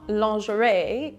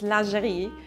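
First: It is said with an English-style pronunciation. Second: It is said with a French-style pronunciation. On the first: The speaker calls it wrong. "It's not lingerie" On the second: The speaker calls it right. "it's lingerie"

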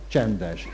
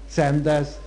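First: It has sh sounds in it. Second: It has only s sounds, no sh sound. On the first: This is the standard Hungarian pronunciation. "csángót magyart mondom" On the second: This is the Csángó pronunciation. "csángót magyart mondom"

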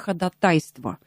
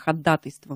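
First: The stress is on the third syllable. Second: The stress is on the second syllable. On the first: The speaker calls it wrong. "Не ходатайство" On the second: The speaker calls it right. "норма русского языка – ходатайство на второй слог"

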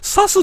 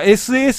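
First: It is read as one short word. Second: It is spelled out letter by letter. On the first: The speaker calls it wrong. "サスって読む方もいらっしゃるみたいなんだけれども" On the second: The speaker calls it right. "正式にはエスエーエスが正解です"

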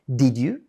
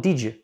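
First: Both words are said separately in full. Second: The words are joined into one contracted form. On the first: "Em vez de falar did you" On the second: "na fala eu falo did you"

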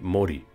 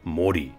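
First: The O vowel is short. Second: The O vowel is long. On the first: This is the original form of the name. "the original pronunciation of the name was simply Mori" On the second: This is the later, changed form of the name. "make the O vowel elongated so that it would sound more like Mori"

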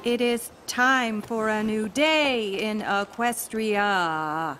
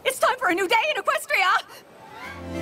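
First: It is said with little energy. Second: It is said with more energy.

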